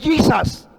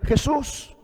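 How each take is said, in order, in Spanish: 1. El nombre se pronuncia a la manera inglesa. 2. El nombre se pronuncia a la manera española.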